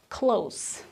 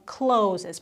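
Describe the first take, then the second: First: It ends in a cluster of consonants. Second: It sounds like the verb 'closes'. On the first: The speaker calls it right. "It's close. There are a lot of consonants at the end" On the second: The speaker calls it wrong. "a lot of people say closes"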